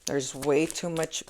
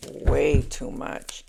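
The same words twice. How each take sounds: First: Said in the usual way. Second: Way stretched very slowly, leaned on hard; stress on WAY. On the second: Shown as a demonstration. Reader warning about reckless card energy, slow heavy stress on Way. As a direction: draw out Way, way too much.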